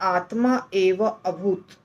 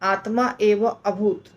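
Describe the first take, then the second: First: The three words are said as separate words. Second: The same.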